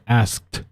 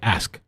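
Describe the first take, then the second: First: The word ends with a clear final t sound. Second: The word ends without the final t sound. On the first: "I don't say asked" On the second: "I always say ask, I just say ask"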